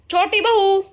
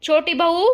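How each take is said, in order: First: Much higher, louder second call of छोटी बहू. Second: Higher, louder call of छोटी बहू. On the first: Calls again, more forcefully. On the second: Mother-in-law calls daughter-in-law. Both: Acted.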